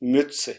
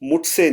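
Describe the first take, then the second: First: The first vowel is a rounded 'ü' sound. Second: The first vowel is a plain 'oo' sound. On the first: The speaker calls it right. "थोड़ा सा आवाज को फ्लैट करूंगा यू के ऊपर" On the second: The speaker calls it wrong. "मैं इसको मुझसे नहीं बोलूंगा"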